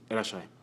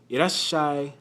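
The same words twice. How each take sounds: First: The sh sound is short, not held. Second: The sh sound is held longer. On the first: The speaker calls it wrong. "Without the tu, it'd be just be irashai" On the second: The speaker calls it right. "with the little tu, it prolongs the s sound"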